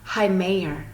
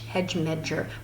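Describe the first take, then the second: First: The d and g sounds are dropped entirely. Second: The d and g sounds are pronounced as written. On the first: The speaker calls it right. "but you actually pronounce it Heimeyer" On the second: The speaker calls it wrong. "it looks like hedge medger"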